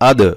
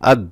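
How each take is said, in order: First: The d is pushed out with an echoing bounce. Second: The d is stopped flat without a bounce. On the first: The speaker calls it right. "ধাক্কা মারতে হবে, প্রতিধ্বনি একটা আওয়াজ হবে" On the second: The speaker calls it wrong. "আর যদি কলকলা না করে তাহলে কিভাবে হয়"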